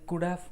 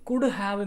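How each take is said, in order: First: The word 'have' is reduced to a short sound. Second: The word 'have' is said in full. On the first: "ഷോർട്ടാക്കിയിട്ട്" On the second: "നമ്മളങ്ങനെ normally ഉപയോഗിക്കാറില്ല"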